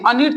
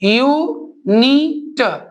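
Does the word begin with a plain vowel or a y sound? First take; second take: plain vowel; y sound. First: The word begins with a plain vowel sound. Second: The word begins with a y sound. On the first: The speaker calls it wrong. "अनिट तो पढ़ते नहीं है" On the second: The speaker calls it right. "क्या पढ़ते हैं, यूनिट"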